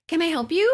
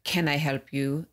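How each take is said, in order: First: High, cheery smiling greeting; huge smile. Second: Slow, unenthused customer-service question; unwelcoming greeting. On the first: Shown as a demonstration. Showing how the front desk could have asked, smiling brightly. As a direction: offer help with a big smile, pitched up. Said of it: "Like, with a huge smile". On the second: Retold or imitated. Friend copying the rude front desk clerk, unwelcoming. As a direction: imitate a clerk with no welcome, drawn out. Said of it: "you could have said, instead of".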